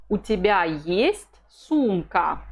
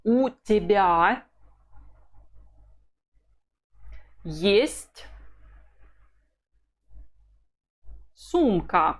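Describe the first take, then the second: First: Есть carries the question peak, slowly; slow question, weight on есть; question tune on есть. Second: У тебя есть сумка, slow, rising on есть; slow model with a lift on есть; slow drill line. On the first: Teacher models the question, peaking on есть. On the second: Teacher drills the phrase slowly, rising on есть. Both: Shown as a demonstration. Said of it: "And the whole of it is".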